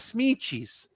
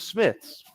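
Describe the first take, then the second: First: The word is said with a Portuguese pronunciation. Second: The word is said with an English pronunciation. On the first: "we would pronounce English words in Portuguese pronunciation" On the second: "instead of Smiths"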